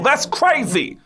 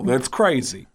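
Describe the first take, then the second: First: Very high-pitched Bronx catchphrase; Tracy Morgan. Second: Put-on Bronx comic voice at ordinary pitch; Tracy Morgan. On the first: Acted. Girl next door talking like a Bronx comic, high-pitched impression. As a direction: squeal it in a put-on Bronx comic voice. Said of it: "everybody sounded like that". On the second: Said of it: "sounds like Tracy Morgan".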